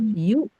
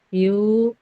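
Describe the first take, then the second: First: The vowel is short with a firm catch. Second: The vowel is drawn out with a weak catch. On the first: The speaker calls it right. "ini tertahan dan kuat" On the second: The speaker calls it wrong. "Kalau ibu misalnya tidak tegas, tidak kuat ... Jadi yuknya kepanjangan"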